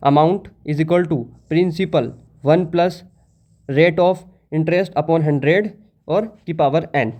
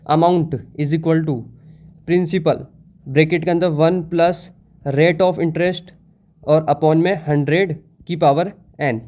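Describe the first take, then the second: First: Very slow, each term spaced out; slow dictation again. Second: Very slow, word by word, like dictating a formula; slow dictation. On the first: Teacher repeating the formula for students to copy, very slow. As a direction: repeat the formula slowly so everyone writes it. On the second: Teacher dictating the formula to students, very slow. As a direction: spell the formula out slowly for notes. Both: Shown as a demonstration. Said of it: "formula क्या होता है".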